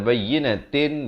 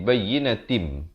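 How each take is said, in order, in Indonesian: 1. Kata ini diakhiri dengan bunyi 'n' biasa. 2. Kata ini diakhiri dengan bunyi sengau 'm' yang ditahan. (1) "Daripada bayyinatin" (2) "jadi bayyinatim dengan dua harakat dengung"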